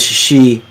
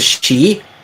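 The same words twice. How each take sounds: First: The pitch drops down on the syllable. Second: The pitch goes up on the syllable. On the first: "it's a lower intonation ... So you're actually dropping down. You're not going up" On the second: "his is she"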